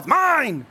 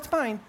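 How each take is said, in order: First: It is said forcefully, with conviction. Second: It is said lightly and casually. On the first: The claim comes from a deep place. The speaker calls it right. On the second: The claim is mild and uncommitted. The speaker calls it wrong.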